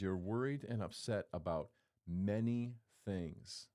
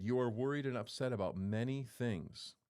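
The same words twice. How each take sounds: First: Slow, weighted You're worried and upset about many things; slowed emphatic reading. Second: Said in the usual way. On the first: Shown as a demonstration. Preacher repeating Jesus' words slowly for weight. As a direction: lean into each word to let it land. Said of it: "He says". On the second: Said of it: "Hold on".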